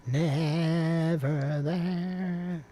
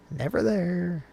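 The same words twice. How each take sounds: First: Very slow, raised, sustained vowels; drawn-out call. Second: Raised pitch, brief playful call. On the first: Co-host playing with words at the start, drawn-out call. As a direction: stretch every syllable right out. Same words stretched out playfully. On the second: Co-host playing with words at the start, playful call. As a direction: call it high and short. Playful short take before stretched repeat. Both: Pretend.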